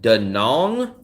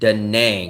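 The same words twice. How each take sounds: First: The second syllable has an 'ong' vowel. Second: The second syllable has an 'ang' vowel.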